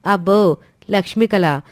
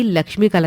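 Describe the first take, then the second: First: Lightly scoffing echo of LAKSHMI KALA; mock awe. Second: Said in the usual way. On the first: Sister scoffing at praise of the daughter-in-law, mildly mocking. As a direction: echo Lakshmi కళ back with mild sarcasm.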